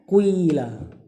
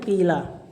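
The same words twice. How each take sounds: First: The first vowel is mixed with slightly rounded lips. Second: The first vowel is a plain unrounded i. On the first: This is an in-between reading. "pertengahan qila. Jadi mulutnya dibonyongin dikit, kayak kecampur" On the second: This is the most common reading. "yang paling masyhur bacanya qila"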